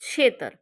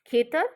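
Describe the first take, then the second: First: The word begins with an aspirated 'chh' sound. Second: The word begins with an aspirated 'kh' sound. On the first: This is the dialect form. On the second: This is the standard form.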